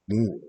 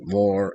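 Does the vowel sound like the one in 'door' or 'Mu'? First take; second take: Mu; door. First: The vowel sounds like the one in 'Mu'. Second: The vowel sounds like the one in 'door'. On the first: The speaker calls it right. "I'm from Mu, Moor" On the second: The speaker calls it wrong. "I don't pronounce it more as an I for door"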